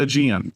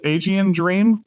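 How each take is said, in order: First: Aegean said "uh-JEE-an"; alternative pronunciation. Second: Aegean said "ay-JEE-an"; first pronunciation option. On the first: Host offering the author the other option, Aegean as "uh-JEE-an". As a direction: open Aegean on a short, unstressed "uh". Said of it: "or is it Aegean". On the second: Host asking the author how to say his title, Aegean as "ay-JEE-an". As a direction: open Aegean with a long "ay". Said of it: "is it Aegean Dream or is it Aegean". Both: Shown as a demonstration.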